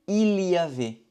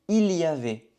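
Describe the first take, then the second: The two takes are said the same way.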